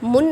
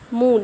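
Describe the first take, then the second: First: The vowel is short, like in wood. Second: The vowel is long, an extended oo sound. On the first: The speaker calls it wrong. "यहाँ पे मुन नहीं पढ़ा" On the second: The speaker calls it right. "यहाँ पढ़ा जाएगा इसे मून"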